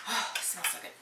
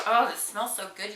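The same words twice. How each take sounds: First: Sighing, breathy over the scent; savoring a smell. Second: Delighted sniff of product; savoring a smell. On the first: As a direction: sigh with pleasure at the smell. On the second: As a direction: relish the scent. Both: Real, not acted. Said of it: "That was an aggressive smell".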